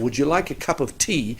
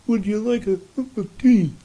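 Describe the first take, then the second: First: The voice is clear with crisp T and K sounds. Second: The voice is muffled with no crisp T or K.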